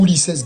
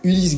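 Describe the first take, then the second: First: The name ends with a pronounced s sound. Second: The name ends without a final s sound. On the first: The speaker calls it right. "Donc pour moi, c'est Ulisses" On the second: The speaker calls it wrong. "je vois pas comment tu peux prononcer Ulysse alors qu'il y a un S à la fin"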